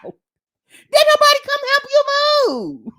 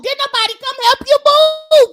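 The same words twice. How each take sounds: First: Higher, altered mock voice; squeaky mock question. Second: Louder, higher demand; loud incredulous question. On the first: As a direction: repeat it in a funny squeaky voice. Repeating the question mockingly. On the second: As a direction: call out the question in disbelief. Challenging her story. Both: Real, not acted.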